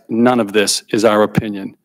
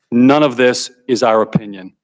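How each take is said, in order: First: "none" leaned on, said a bit lower and firmer; emphatic repeat. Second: Said in the usual way. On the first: Real, not acted. Witness insists to the committee it is fact: emphatic "none". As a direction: repeat "none of this is our opinion" stressing "none". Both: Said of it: "I emphasize".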